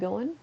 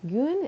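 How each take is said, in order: First: The word is said fully with two syllables. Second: The word is clipped to one syllable, 'goon'. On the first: This is the standard form that others use. "instead of going" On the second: This is how people in her region say it. "like we say goon"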